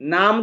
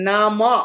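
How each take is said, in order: First: The word ends on the consonant m. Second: A short vowel is added after the m. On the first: The speaker calls it wrong. "নাম কেন বলছেন?" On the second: The speaker calls it right. "ময়ের পর একটা অকার আছে"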